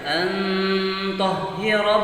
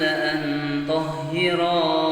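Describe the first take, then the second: First: The vowel after the ra is cut short. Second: The vowel after the ra is held long. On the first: The speaker calls it wrong. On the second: The speaker calls it right.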